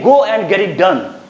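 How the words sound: It is said firmly, in a commanding voice. The speaker is giving an order. "Order दोगे तो order वाली आवाज होनी चाहिए"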